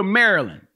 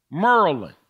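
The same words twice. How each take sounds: First: Said in the usual way. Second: Maryland squashed into "Murlan"; local pronunciation. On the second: Shown as a demonstration. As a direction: say Maryland with two syllables, "MUR-lan". Repeats name in local pronunciation.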